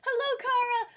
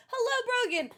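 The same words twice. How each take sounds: First: High singsong greeting. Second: Falling high hello; lilting hello with a drop; high singsong greeting. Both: Real, not acted.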